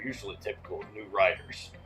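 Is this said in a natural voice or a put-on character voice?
put-on. It is read in a put-on character voice.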